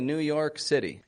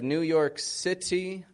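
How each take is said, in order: First: The T in City is a quick flapped sound. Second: The T in City is a clear, crisp T. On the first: This is how an American accent says it. "I'll say New York City" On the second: This is how the other speaker's accent says it. "instead of New York City"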